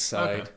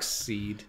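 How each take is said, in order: First: The second part rhymes with 'ride'. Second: The second part rhymes with 'need'. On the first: "It's side" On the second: "I always say dark seed"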